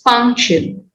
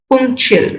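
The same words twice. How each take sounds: First: The first syllable sounds like 'puh'. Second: The first syllable sounds like 'pu'. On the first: The speaker calls it right. "It's punctual" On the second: The speaker calls it wrong. "It is not punctual"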